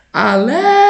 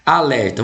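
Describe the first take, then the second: First: "Alerta" called out, LER held long and high; chamando a palavra. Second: Said in the usual way. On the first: Shown as a demonstration. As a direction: call "Alerta" like hailing someone, stretching the stressed LER. (chamar "Alerta" alongando e subindo a sílaba tônica LER) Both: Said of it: "vamos chamar o alerta?".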